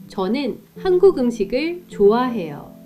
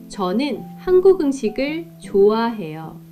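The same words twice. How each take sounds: No difference in how they are said.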